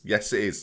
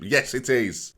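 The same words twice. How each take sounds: First: It is said without conviction, sounding unsure. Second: It is said with conviction, sounding sure.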